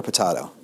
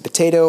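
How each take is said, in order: First: "potato" with an AH, puh-TAH-toh; "ah" pronunciation. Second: "potato" with a long AY, puh-TAY-toh; "ay" pronunciation. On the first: Lecturer asking which pronunciation is right, "potato" with AH. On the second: Lecturer asking which pronunciation is right, "potato" with AY. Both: Shown as a demonstration. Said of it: "Is it potato or potato".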